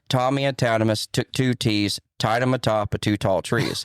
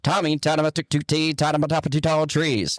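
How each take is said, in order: First: It is said slowly and plainly. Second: It is said quickly with popping, rolling energy.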